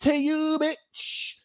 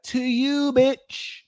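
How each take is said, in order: First: Much higher, trailing "To you, bitch" softly; softer sassy comeback. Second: High, mocking "To you, bitch"; sassy comeback. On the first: Repeating the comeback for viewers, higher and fading. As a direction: drop it dismissively. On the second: Advising viewers on comebacks, high sassy retort. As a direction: toss it right back at them. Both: Shown as a demonstration. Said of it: "turn it back to them and be like".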